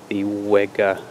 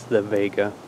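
First: The word begins with a W sound. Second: The word begins with a V sound. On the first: This is the name as commonly used. The speaker calls it wrong. "it's become known as" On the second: This is the name as the maker says it. The speaker calls it right. "but it's the Vega"

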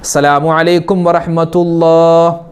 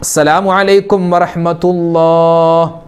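Both takes have the same delivery.

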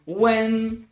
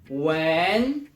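First: The pitch stays high and level throughout. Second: The pitch rises upward across the syllable. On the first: It means warm. "Sylaba na pierwszym tonie, czyli tym wysokim i jednostajnym" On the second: It means to smell. "ton wznoszący do góry"

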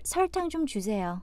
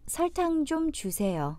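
First: It is said a little faster. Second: It is said at a normal pace.

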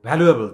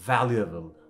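First: The word begins with a breathy bh sound. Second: The word begins with teeth on the lower lip. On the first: The speaker calls it wrong. "this is not the correct pronunciation guys" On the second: The speaker calls it right. "ekhon dekhen valuable"

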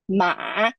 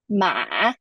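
First: The syllable dips low and then rises. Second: The syllable dips low and then rises.

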